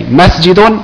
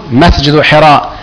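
First: "مسجد" ending on -un; with tanween. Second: "مسجد" ending on bare -u before "حراء"; no n sound at the end of "مسجد"; tanween dropped. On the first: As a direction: pronounce "مسجد" as masjidun. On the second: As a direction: say masjidu hira for "مسجد حراء". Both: Shown as a demonstration. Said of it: "لازم تحذف التنوين عندما تضيف".

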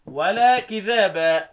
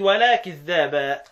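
First: Slowly recited كذابا with a single dhal; light dhal in كذابا, vowels drawn out; lightened consonant. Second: Slowly recited كذابا with doubled dhal; doubled consonant. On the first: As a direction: say كذابا as kidhaba, undoubled. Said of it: "الكسائي قرأ بالتخفيف". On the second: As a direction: say كذابا as kidh-dhaba. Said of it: "بالتشديد". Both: Shown as a demonstration.

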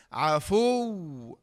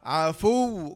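First: عفو with pressed final و; stressed ending. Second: عفو with a firm stop on the و; stressed ending. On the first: Teacher shows the stress rule on عفو. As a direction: lean hard on the و of عفو. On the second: Teacher repeats the stressed form. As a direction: press the doubled و of عفو. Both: Shown as a demonstration. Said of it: "لابد أن تنبر عليها كذا".

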